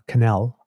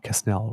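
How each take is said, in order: First: The name is pronounced the French way. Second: The name is pronounced the English way. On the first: "I might be pronouncing Canal as a, a francophone" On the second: "It might be Quesnel or something"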